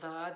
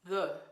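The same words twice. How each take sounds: First: The vowel is said with unrounded lips. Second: The vowel is said with rounded lips. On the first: "when we say the, that's a schwa" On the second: "In French, the schwa is rather rounded in the lips"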